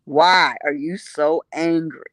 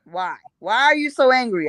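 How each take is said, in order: First: "Why are you so angry?" slow and low; slow taunting question. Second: Said in the usual way. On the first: Retold or imitated. Speaker needling the angry room, slowly and low. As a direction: draw it out calmly to needle them. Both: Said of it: "I was asking them".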